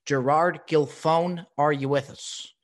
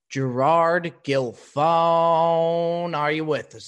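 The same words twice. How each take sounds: First: Said in the usual way. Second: Loud call, the name hugely stretched. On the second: Real, not acted. Host calling for his missing guest, loud and drawn out. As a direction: hold the last syllable like an announcer summoning someone.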